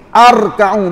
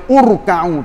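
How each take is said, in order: First: The word begins with an a vowel. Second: The word begins with a u vowel. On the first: "Arka'u pun tak boleh" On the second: "Tak boleh baca urka'u"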